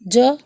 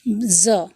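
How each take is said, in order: First: A j sound made at the palate. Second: A buzzing z sound like a bee. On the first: "तालु से अल्प प्राण ये ध्वनि है" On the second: "यह एक बजिंग साउंड, मधुमक्खी के आवाज़ की तरह"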